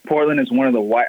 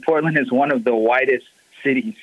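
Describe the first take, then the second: First: Talking around a sip of coffee; words cut short by a coffee sip; while sipping a drink. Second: Said in the usual way. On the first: Real, not acted. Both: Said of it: "I'm sorry, I'm drinking coffee".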